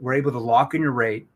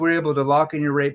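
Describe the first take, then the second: First: It is slower with varied, expressive pitch. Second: It is fast and flat in pitch. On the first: It triggers a different emotional driver in the listener. The speaker calls it right. "pay attention to how I use my tonality now and verbal pace it out" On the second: The listener gives a knee-jerk surface level answer. The speaker calls it wrong. "Monotone voice, too quick"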